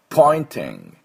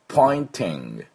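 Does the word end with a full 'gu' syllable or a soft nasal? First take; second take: soft nasal; soft nasal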